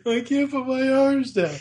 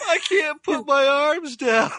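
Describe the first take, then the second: First: Put-on higher kid whine through a laugh; whiny child. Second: Put-on high, slow whining kid voice, much higher and louder; whiny child. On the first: A lightly voiced whining kid while laughing. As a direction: whimper it like the little brother. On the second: Quoting Randy stuck in his snowsuit, whiny child voice. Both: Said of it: "Poor Randy".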